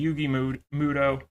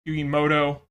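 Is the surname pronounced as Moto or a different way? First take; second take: different; Moto. First: The surname is said differently from Moto. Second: The surname is said as Moto. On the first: "however you want to pronounce it" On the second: "It's always been Moto for me"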